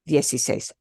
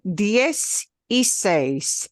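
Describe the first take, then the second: First: It is said quickly as one word. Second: It is said slowly, word by word.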